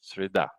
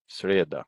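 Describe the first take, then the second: First: Среда stressed on the last syllable, sri-DA; среда correctly stressed, сре-ДА; correct final stress. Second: Среда stressed on the first syllable, SRYE-da; среда as a learner's mistake, СРЕ-да; wrong-syllable stress. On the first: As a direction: say среда with a short сре and the beat on да. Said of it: "but it's not среда". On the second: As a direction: say среда with the beat on сре, weak final а. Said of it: "they'll pronounce it среда". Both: Shown as a demonstration.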